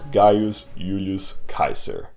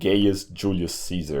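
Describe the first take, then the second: First: The name is said with classical Latin sounds. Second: The name is said with familiar English sounds. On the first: This is the authentic original pronunciation. "And that's how you pronounce it" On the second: This is the familiar, easier pronunciation. "I'll call him Gaius Julius Caesar anyway, saves me the trouble"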